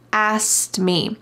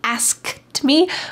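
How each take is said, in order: First: The K sound in asked is dropped. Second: The K sound in asked is clearly pronounced. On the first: "The K really gets just forgotten in this word. In fast American English" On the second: "when they're speaking slowly, people say asked me, asked me, asked me with the K"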